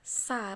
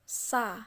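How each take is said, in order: First: The sound is thick and heavy. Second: The same.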